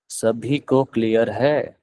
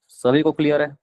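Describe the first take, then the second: First: "सभी को clear है?" drawn out slowly, with a rise at the end; slow repeat. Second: Said in the usual way. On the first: Shown as a demonstration. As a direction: ask it again slowly and deliberately. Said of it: "teacher repeats the question slower". (धीरे-धीरे, खींचकर दोबारा पूछा गया सवाल) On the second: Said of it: "teacher repeats the question".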